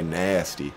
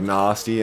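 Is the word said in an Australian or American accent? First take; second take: American; Australian. First: It is said in an American accent. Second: It is said in an Australian accent.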